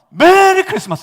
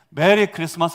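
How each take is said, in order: First: It starts high and comes down. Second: The pitch stays level throughout.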